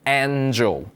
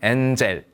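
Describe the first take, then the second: First: It is said with an English accent. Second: It is said with a Korean accent.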